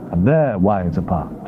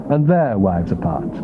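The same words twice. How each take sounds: The two takes are said the same way.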